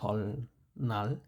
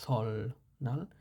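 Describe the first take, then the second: No difference in how they are said.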